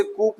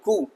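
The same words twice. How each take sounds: First: कूप closing on a p, "koop"; कूप with the p heard; wrong, p sounded. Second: कू said softly as "koo"; softer कू ending on the vowel; silent p. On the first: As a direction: voice the final p in कूप. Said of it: "लेकिन पी silent है". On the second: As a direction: leave कू open, no p. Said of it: "पी silent है". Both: Shown as a demonstration.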